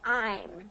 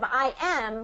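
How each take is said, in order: First: It is said as one contracted syllable. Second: It is said as two separate full words. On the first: "we're going to say I'm" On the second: "Instead of I am"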